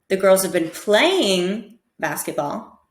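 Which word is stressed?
playing. The word playing carries the main stress. "try and stress each word differently"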